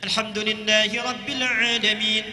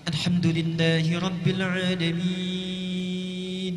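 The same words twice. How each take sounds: First: It is recited quickly with short vowel lengths. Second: It is recited slowly with the longest vowel lengths. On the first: This suits voluntary congregational prayers such as tarawih. "itu disebut dengan qiraah hadar, cepat" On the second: This suits night prayer and deep reflection. "tiwal, yang paling panjang, enam harakat"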